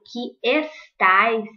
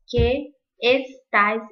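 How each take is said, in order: First: The two words run together as one syllable. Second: The two words are split apart with a break. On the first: The speaker calls it right. "Acaba ligando uma palavra na outra" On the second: The speaker calls it wrong. "eu não iria falar assim"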